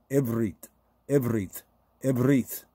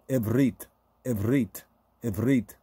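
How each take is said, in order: Both takes have the same delivery.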